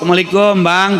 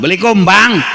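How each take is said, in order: First: It is said softly and gently. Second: It is said harshly and impatiently.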